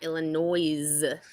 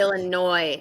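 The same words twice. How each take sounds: First: The final S is pronounced. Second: The final S is silent. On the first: The speaker calls it wrong. "not Illinois" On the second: The speaker calls it right. "I think it's"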